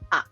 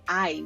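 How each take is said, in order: First: The vowel is one steady sound. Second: The vowel glides between two sounds. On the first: "we say a" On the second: "we don't say I"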